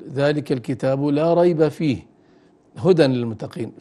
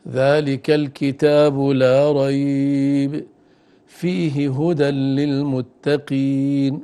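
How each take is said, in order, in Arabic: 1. الوقفة بعد fih، وقبل huda. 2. الوقفة بعد la rayb، وقبل fih. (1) "فنعلق فيه بلا ريب" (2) "بهذا الأمر يكون فيه هدى"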